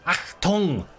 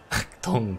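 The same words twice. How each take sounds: First: Loud higher barked command; German shout. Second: Said in the usual way. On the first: Pretend. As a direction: bark it like a drill officer.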